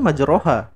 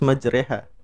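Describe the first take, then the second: First: The vowel after the r sounds like 'o'. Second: The vowel after the r sounds like 'e'. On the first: This follows the written spelling. The speaker calls it wrong. "tulisan di Quran itu majroha" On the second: This is the special reading required here. The speaker calls it right. "kita bacanya harus majreha karena itu gharib"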